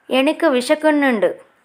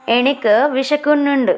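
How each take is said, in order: Both takes have the same delivery.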